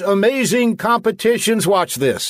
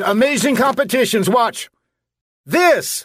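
First: It runs on with no pause before "watch this". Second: There is a short pause before "watch this". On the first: The speaker calls it wrong. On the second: The speaker calls it right.

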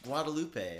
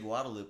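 First: The name is said in the standard way. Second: The name is said in a Texan way. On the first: This is the accepted pronunciation. "it's pronounced Guadalupe" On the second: This is a habit from regional upbringing. "Like I say Guadalupe"

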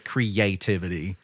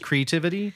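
First: The 'a' vowel in the middle is pronounced. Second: The 'a' vowel in the middle is dropped. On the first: "Alabamaizing it, or creativity, like we would" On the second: "He does not pronounce the A"

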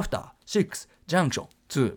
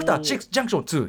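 First: It is said slowly with a longer gap. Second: It is said fast with a short gap. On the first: "ゆっくりだったら" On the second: "早くなったら"

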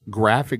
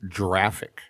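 First: It begins with a hard G sound. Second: It begins with a soft J-like G. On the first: The speaker calls it right. "does not have the soft G sound" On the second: The speaker calls it wrong. "graphic is not pronounced graphic"

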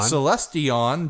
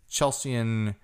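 First: The name begins with an 's' sound. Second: The name begins with a 'ch' sound. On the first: The speaker calls it right. "It probably is Celestion" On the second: The speaker calls it wrong. "There's no H in there"

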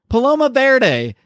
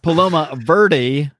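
First: Verde is said with a Spanish-style pronunciation. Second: Verde is said with an English-style pronunciation. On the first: The speaker calls it right. "It's pronounced Paloma Verde, because who the fuck didn't take at least one day of Spanish" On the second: The speaker calls it wrong. "it is not pronounced Paloma Verde"

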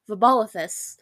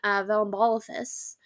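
First: The name has no extra L sound. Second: The name has an extra L sound. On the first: The speaker calls it right. "There's no L right there" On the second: The speaker calls it wrong. "I don't think I pronounced that right"

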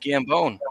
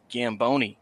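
First: The name ends on the 'bone' sound, no vowel. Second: The name ends with an added 'ee' vowel. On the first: The speaker calls it right. "no, it's Gambone, like bones" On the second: The speaker calls it wrong. "everybody loves to pronounce it Gamboni for some reason"

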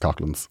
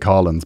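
First: The name is said with a k sound. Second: The name is said without a k sound. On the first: This is how people outside Cork say it. "everywhere else it's Cocklands" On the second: This is how people in Cork say it. "apparently in Cork, you have to say Collins"

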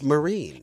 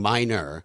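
First: The name is said like Marine. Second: The name is said like Minor. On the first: The speaker calls it right. "So it's Marine" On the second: The speaker calls it wrong. "I've been saying her name wrong"

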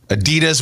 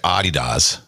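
First: It is said the American way. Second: It is said the way other countries say it. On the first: "we say that right" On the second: "Other parts of the world say Adidas"

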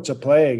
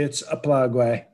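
First: Plague is pronounced the plain English way. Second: Plague is pronounced in a Spanish-sounding way. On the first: The danger is made to sound harmless. The speaker calls it wrong. "the left likes to make things sound safe" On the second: The danger is tied to immigrants. The speaker calls it right. "I use the Mexican pronunciation"

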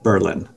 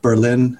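First: It is said the way the local town says it. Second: It is said like the German city's name. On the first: "but we pronounced it Berlin" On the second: "spelt like Berlin, as that city in Germany"

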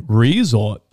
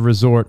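First: The stress is on the first syllable. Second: The stress is on the second syllable.

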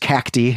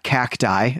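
First: The final vowel sounds like 'ee'. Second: The final vowel sounds like 'eye'. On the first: The speaker calls it right. "an I at the end of the word is pronounced E" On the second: The speaker calls it wrong.

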